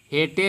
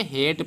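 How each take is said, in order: First: हेटे in two syllables, "hay-tay"; wrong spelled-out reading. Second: हेट as one syllable, silent E; हेट said "hate", no E sound; correct reading. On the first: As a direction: voice the final E of हेटे. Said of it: "हेटे नहीं पढ़ेंगे". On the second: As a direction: end हेट right on the T. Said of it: "हेट पढ़ेंगे". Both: Shown as a demonstration.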